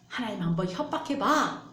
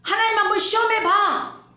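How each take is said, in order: First: Said in the usual way. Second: Loud taunt. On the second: Acted. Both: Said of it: "마귀가 그렇게 얘기하고 있어요".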